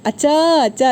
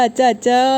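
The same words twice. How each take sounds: First: Eager call to dad, pitched up; calling out eagerly. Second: Said in the usual way. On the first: Acted. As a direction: call out to father, rushing in. (അച്ഛനെ ആവേശത്തോടെ വിളിക്കുന്നു) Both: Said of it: "എന്ന് പറഞ്ഞിട്ട്".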